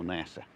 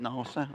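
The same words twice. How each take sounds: First: Nasa as NASS-uh, offered as the other option; nasa, first vowel like cat; short-a pronunciation. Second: Nasa as NAH-suh, offered as one option; nasa, first vowel like father; broad-a pronunciation. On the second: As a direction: say nasa with a long ah. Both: Shown as a demonstration. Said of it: "Is it nasa or nasa?".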